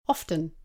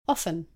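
First: The T sound in the middle is pronounced. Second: The T sound in the middle is silent. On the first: "Some people pronounce often with a T" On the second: "others don't pronounce the T"

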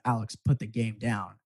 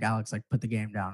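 First: It is said in a stern mom tone. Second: It is said in a casual, mild tone.

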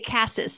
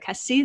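First: The final s sound is pronounced. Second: The final s sound is silent. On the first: This is how English speakers would say it. "we would say Cassis" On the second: This is how the locals say it. "They don't pronounce that last S"

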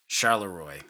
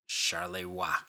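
First: The name is said with an English-style pronunciation. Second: The name is said with a French-style pronunciation. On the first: The speaker calls it wrong. "In the last episode, I pronounced the town as Charleroi" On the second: The speaker calls it right. "it is actually pronounced Charleroi"

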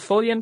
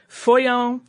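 First: The name is said with a clear L sound. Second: The name is said with an oy sound. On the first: "like a normal Follian pronunciation" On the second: "which would be more like Foyon"

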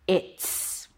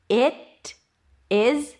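First: It is contracted into one syllable ending in s. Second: Both words are said fully and separately.

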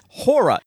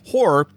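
First: It sounds like the dance word hora. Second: It is said in another region's way. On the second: "People from, you know, other parts of the country, they say it horror"

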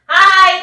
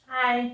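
First: It is said loudly. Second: It is said quietly.

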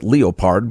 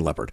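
First: Leopard is said the German way. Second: Leopard is said the English way.

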